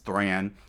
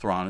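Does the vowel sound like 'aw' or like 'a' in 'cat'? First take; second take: a; aw. First: The vowel is a flat 'a' sound. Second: The vowel is an open 'aw' sound. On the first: The speaker calls it right. "I guess it's Thran" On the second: The speaker calls it wrong. "I pronounce it Thrawn"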